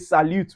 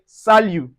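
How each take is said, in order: First: The final t sound is pronounced. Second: The final t sound is silent. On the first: The speaker calls it wrong. "we don't say salute" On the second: The speaker calls it right. "The T in salut is silent"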